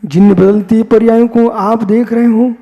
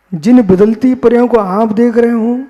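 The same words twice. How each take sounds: The two takes are said the same way.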